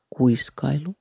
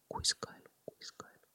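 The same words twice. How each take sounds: First: Slow ASMR whisper, word by word. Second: Whispered echo dying away into silence; fading whisper. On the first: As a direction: whisper the list slowly as a demo. (hidas kuiskaus) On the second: (hiipuva kuiskauskaiku) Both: Shown as a demonstration.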